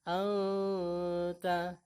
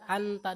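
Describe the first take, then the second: First: The n is hidden with a lengthened nasal hum. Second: The n is plain, with no nasal hum. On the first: The speaker calls it right. "samarnya, sementara dengungnya itu agak dipanjangkan" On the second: The speaker calls it wrong. "tidak sekedar dibaca anta doang. Ya, itu tidak ada samar dan dengungnya"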